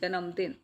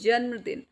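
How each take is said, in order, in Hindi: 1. न ध्वनि के बाद पूरा स्वर आता है। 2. न, बिना स्वर के म के साथ जुड़ जाता है। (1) "अगर आप ऐसे लिखते हैं पूरा नए तो ये बन जाता है जन्मदिन ... गलत है" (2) "आधे न की साउंड आ रही है"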